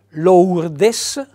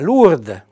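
First: It is read with Italian letter sounds. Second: It is read with French letter sounds. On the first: "io le leggo secondo la fonetica nostra, italiana" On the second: "secondo la fonetica, quella corretta delle lingue"

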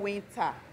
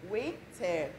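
First: The T sound is clearly pronounced. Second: The T sound is dropped and silent. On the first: The speaker calls it wrong. "not winter" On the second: The speaker calls it right. "The T is silence"

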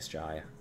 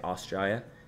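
First: The word starts without the first vowel sound. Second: The word begins with a full vowel sound. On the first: "They say it without the first A" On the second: "people from Australia who have the Australian accent don't say Australia"

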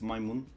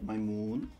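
First: The vowel in moon is short. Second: The vowel in moon is long. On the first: The speaker calls it right. "the moon isn't that long. It's my moon" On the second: The speaker calls it wrong. "It's not my moon"

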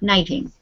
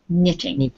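First: The first vowel is a long ee sound. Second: The first vowel is a short i sound. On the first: The speaker calls it wrong. "not knitting" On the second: The speaker calls it right. "the short I sound"

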